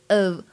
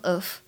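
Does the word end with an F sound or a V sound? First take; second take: V sound; F sound. First: The word ends with a voiced v sound. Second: The word ends with a voiceless f sound. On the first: The speaker calls it right. "它发的是v 而不是f 的音" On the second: The speaker calls it wrong. "千万不要读成of"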